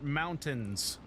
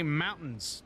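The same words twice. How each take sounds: First: It is said in a standard accent. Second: It is said in a local Utah accent. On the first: This is how others say it. The speaker calls it right. "not mountains" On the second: This is how locals say it. The speaker calls it wrong. "I'm from Utah, where ... we say mountains"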